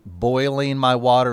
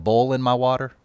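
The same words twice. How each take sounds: First: Said in the usual way. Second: Southern "boiling" said like "bowling", the oi flattened to an o; Southern-accented "boiling my water" said as "bowling my water". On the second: Shown as a demonstration. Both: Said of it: "people boil their water now rather than bowling".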